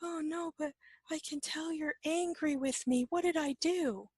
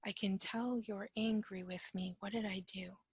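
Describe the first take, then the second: First: High-pitched imitation of an anxious friend; worried companion. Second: Softer, at normal pitch; quiet repeat. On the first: Companion insists you are angry with them, high anxious mimicry. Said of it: "And the person goes". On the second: Shown as a demonstration. Teacher replays the companion's words for reflection, quiet and unacted. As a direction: repeat it softly and reflectively, without acting. Repeats the quote slowly to examine it.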